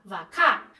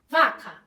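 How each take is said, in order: First: "vacá" stressed on the last syllable, va-CÁ; "vacá" with a strong final syllable; shifted stress. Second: "vaca" stressed on the first syllable, VA-ca; "vaca" with a strong first syllable; usual word stress. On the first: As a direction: say "vacá" with the weight thrown onto CÁ. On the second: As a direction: say "vaca" with weight on VA, falling on ca. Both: Shown as a demonstration. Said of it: "atenção na entonação como a pessoa fala".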